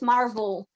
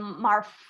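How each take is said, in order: First: The middle consonant is a voiced V sound. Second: The middle consonant is a voiceless F sound. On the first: The speaker calls it right. "try uh, to pronounce it more like a V" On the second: The speaker calls it wrong. "rather than an F"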